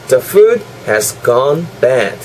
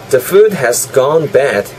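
First: It is said a bit more slowly. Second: It is said at a normal speed.

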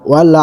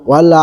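No difference in how they are said.

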